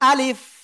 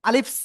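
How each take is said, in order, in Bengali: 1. শব্দটা শুধু f উচ্চারণে পরিষ্কারভাবে শেষ হয়। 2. শব্দের শেষে একটা বাড়তি s উচ্চারণ যোগ হয়। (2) "অনেকেই বলতেছে আলিফস আলিফস আলিফস না"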